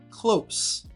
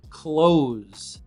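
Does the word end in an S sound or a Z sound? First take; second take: S sound; Z sound. First: The word ends with a hissing S sound. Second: The word ends with a buzzing Z sound. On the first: Something is near something else. "This version of close is with an S sound" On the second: Someone shuts something. "It's a Z sound at the end of close the door. You have a vibration in your throat"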